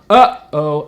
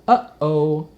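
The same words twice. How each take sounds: First: It is said loudly, blasting air. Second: It is said gently, like speaking.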